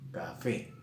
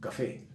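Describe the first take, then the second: First: "café" slowly, leaning on the final fé; stress on final syllable. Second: Said in the usual way. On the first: Shown as a demonstration. Teacher shows students where the accent falls, stressed final fé in "café". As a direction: draw out "café" so the last syllable fé stands out. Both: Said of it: "llevan el acento en la última sílaba".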